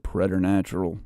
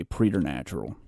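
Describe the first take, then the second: First: "preternatural" with a short e, PRET-er-natural; American "preternatural", opening on PRET rather than PREE; American pronunciation. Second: "preternatural" with a long ee, PREE-ter-natural; "preternatural" opening on PREE rather than PRET; British-style pronunciation. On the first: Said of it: "That's correct in American English". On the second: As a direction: say "preternatural" as in England, first syllable like "pree". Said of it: "and they say preternatural". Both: Shown as a demonstration.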